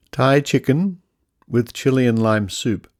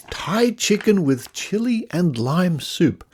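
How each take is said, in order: First: Said in the usual way. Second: Higher, slow and relishing every word; slow, higher mock-gourmet relish; savouring the name. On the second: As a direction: read it like a tasty treat. Rereads packet name with relish.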